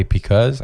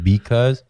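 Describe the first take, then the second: First: "because" starting with a P; mispronounced because. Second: "because" with a clear B, "bee-cause"; standard because. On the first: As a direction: say "because" as "pecause". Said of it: "'cause my mom, she says because". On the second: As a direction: say "because" starting on a voiced B. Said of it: "I never said because". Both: Shown as a demonstration.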